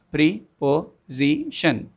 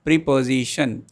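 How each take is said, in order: First: "preposition" slowly in four beats, pre-po-si-tion; "preposition" drawn out syllable by syllable; syllables spelled out slowly. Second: Said in the usual way. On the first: Shown as a demonstration. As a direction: beat out "preposition" for the class. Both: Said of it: "some more examples for four syllables".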